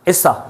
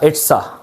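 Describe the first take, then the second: First: The t sound is dropped, giving isa. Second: The t sound in it's is clearly pronounced. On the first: "इसको इसा भी बोलते हैं, यानी कि टी को बिल्कुल ही उड़ा दो" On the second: "मैंने क्या बोला? इट्स अ"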